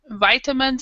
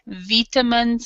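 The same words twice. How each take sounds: First: It is said with an American pronunciation. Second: It is said with a British pronunciation. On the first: "is American English" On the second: "is British English"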